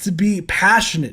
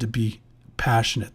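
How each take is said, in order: First: It is said with lively, animated energy. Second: It is said flatly, with little energy. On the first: The speaker calls it right. "I know I talk very animated" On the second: The speaker calls it wrong. "notice the difference"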